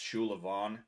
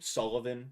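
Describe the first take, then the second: First: The name is said with an Irish pronunciation. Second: The name is said with an English pronunciation.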